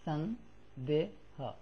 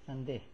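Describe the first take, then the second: First: A short vowel is pronounced after the final h. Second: The word ends on the h with no vowel. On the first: The speaker calls it wrong. "not read like sandeha" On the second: The speaker calls it right. "but like sandeh"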